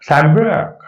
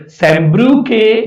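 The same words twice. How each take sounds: First: सॅम्ब्रक said ending on k, no final e; correct pronunciation. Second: सॅम्ब्रुके said with a final e sound after k; wrong pronunciation. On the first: Teacher shows students the correct way to say the poet's name. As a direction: say सॅम्ब्रक as sam-brak, stopping on the k. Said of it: "ईचं उच्चार नाही". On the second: Teacher shows students the wrong way to say the poet's name. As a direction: sound out सॅम्ब्रुके as sam-bru-ke, ending on e. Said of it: "सॅम्ब्रुके म्हणायचं नाही". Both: Shown as a demonstration.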